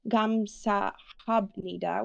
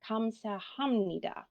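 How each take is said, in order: First: A clear B sound comes before nida. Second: An M sound comes before nida. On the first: The speaker calls it wrong. "we do not pronounce this word as a gamsahabnida" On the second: The speaker calls it right. "We actually say kamsahamnida because of the consonant assimilation"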